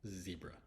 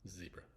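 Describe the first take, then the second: First: It is said in an American accent. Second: It is said in an American accent.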